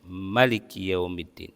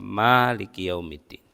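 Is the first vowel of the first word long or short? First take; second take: short; long. First: The first vowel is kept short. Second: The first vowel is drawn out long. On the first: "dengan memendekkan bacaannya" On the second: "dengan dipanjangkan seperti yang biasa kita baca"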